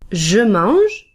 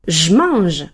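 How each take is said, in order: First: The e of je is pronounced. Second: The e of je is dropped. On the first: "The normal pronunciation would be with the sound j" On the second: "since we don't pronounce the e, it's as if there were only one word"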